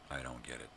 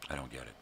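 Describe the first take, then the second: No difference in how they are said.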